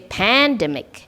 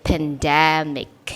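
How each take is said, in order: First: The stress is not on the second syllable. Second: The stress is on the second syllable. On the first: The speaker calls it wrong. "You don't say pandemic" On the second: The speaker calls it right. "The stress is on the second syllable"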